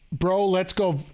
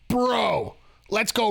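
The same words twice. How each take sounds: First: It is said in his ordinary speaking voice. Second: It is said in a put-on wrestling-character voice. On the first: The speaker calls it wrong. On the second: The speaker calls it right.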